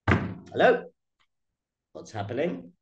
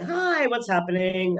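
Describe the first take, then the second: First: It is said like a stern police officer. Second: It is said like a friendly greeting.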